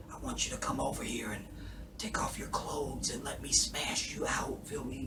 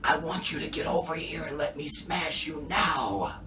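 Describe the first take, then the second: First: Soft breathless whisper; David whispering. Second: A strained half-voiced yell; David yelling. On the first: Retold or imitated. Imitating David whispering to his wife. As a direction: whisper it like a spent man. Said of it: "this is David when he's just talking". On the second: Imitating David's best attempt at yelling. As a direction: push it like he's trying to shout. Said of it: "this is David yelling".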